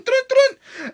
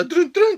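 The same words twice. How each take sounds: First: Sung, much higher second pair of notes; sung, push the theme up high; high sung entrance sting. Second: Hummed ominous theme notes; sung entrance sting. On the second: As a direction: sing the entrance music. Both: Pretend. Entrance music for Lana.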